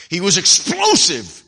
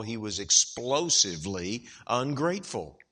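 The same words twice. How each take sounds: First: Explosive punched slow and much louder; a loud, slow, heavy stress on explosive. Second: Said in the usual way. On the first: Shown as a demonstration. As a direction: hammer the word explosive, drawn out. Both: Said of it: "Don't forget those words".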